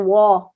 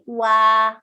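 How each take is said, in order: First: The vowel sounds heavy and dark. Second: The vowel sounds light and open. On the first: The speaker calls it wrong. "don't make wow heavy. Don't say wah" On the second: The speaker calls it right. "Say wah"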